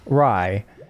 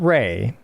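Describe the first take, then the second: First: The name has the vowel of 'eye'. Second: The name has the vowel of 'day'. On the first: The speaker calls it right. "It's apparently Rai. So I've gone awry" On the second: The speaker calls it wrong. "It's not Ray"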